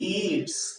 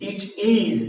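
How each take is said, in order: First: It is said as one short contracted word. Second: It is said as two full separate words. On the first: "ইট ইজ না হলে বলা হলো কি ইটস" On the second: "শব্দটি ইট ইজ"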